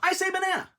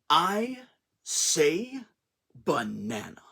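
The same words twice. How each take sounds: First: The title is said in a plain way. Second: The title is said in a dramatic way.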